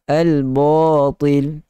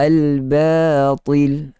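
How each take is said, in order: First: The long a is thickened along with the thick letter. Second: The long a is thin despite the thick letter. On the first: The speaker calls it wrong. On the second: The speaker calls it right.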